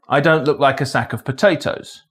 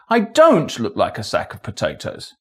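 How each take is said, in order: First: No single word carries special stress. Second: The stress falls on the word don't. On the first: It is a neutral statement of fact. "a neutral statement of fact" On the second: It corrects someone who claims otherwise. "correcting someone who says I do"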